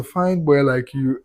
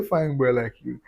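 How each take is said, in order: First: Put-on slow, drawn-out "Fine boy like you"; drawn-out teasing. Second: Said in the usual way. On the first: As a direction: stretch each word of "Fine boy like you" out slowly and teasingly. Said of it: "And I say". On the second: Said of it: "I say".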